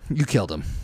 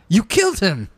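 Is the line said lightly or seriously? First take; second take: seriously; lightly. First: It is said in a more serious way. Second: It is said in a lighter, less serious way.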